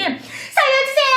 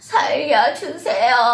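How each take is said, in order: First: It is loud, urgent and full of energy. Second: It is weak, quiet and drained of energy. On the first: The person is in danger and desperately seeking help. "누구한테 도움을 받고자 하는 에너지가 있겠죠" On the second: The person has begged so long they are exhausted. "애원을 했는데 내 기운이 빠졌어요"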